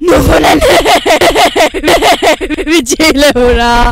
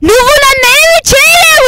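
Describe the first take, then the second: First: It is said in a comic tone. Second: It is said in an angry tone.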